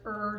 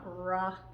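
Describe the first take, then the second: First: A short, clean r with no vowel after. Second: An r followed by an extra vowel sound. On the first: The speaker calls it right. "You want to make sure it's er" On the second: The speaker calls it wrong. "not ra"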